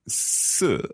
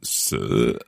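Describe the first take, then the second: First: It carries the tone of the word four. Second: It carries the tone of the word death. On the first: It means the number four. "Number four" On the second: It means death.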